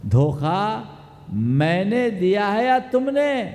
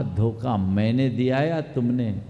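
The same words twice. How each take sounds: First: धोखा set apart, then मैंने climbing high to तुमने; challenging retort. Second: Said in the usual way. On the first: Retold or imitated. Girl throws blame back at suitor, challenging with rising तुमने. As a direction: pause after धोखा, then raise the pitch through to तुमने. Girl's retort repeated forcefully.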